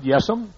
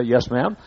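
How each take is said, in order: First: Yes'm clipped to one syllable, rising, southern. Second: Said in the usual way. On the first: Shown as a demonstration. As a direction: say Yes'm as a southern drawl of yes ma'am. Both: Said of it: "That's a southern way to say".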